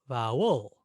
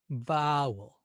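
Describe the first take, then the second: First: The stress is on the second syllable. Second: The stress is on the first syllable.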